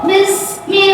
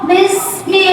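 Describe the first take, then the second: Both takes have the same delivery.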